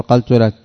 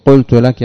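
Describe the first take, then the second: First: Said in the usual way. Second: Quoting the people's mistake, a bit louder; mock the common slip, louder; teacher quoting a common error, raised voice. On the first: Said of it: "يقول". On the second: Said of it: "بدل أن يقول".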